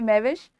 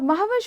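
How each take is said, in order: First: The first syllable sounds like 'mai'. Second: The first syllable sounds like 'maah'. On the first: Someone who is like wine. The speaker calls it wrong. "महविश वो होती है शराब जैसी" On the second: Someone who is like the moon. The speaker calls it right. "महविश होती है चांद के जैसी"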